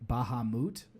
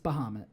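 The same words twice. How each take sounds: First: The name is said in a fancy stylized way. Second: The name is said in a plain everyday way. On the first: "the like fancy Final Fantasy seven pronunciation" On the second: "it's Bahamut"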